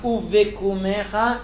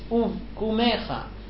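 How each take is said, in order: First: A short vowel is sounded before the k. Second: No vowel is sounded before the k. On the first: The speaker calls it wrong. "It's not uv vekumecha" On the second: The speaker calls it right. "it's uv kumecha. The vase is a shva nach, it's a rested shva"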